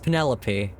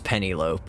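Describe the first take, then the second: First: The name is said the standard way. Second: The name is said as it is spelled. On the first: The speaker calls it right. "I know it's Penelope" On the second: The speaker calls it wrong. "every time I read it in anything, it was Penelope"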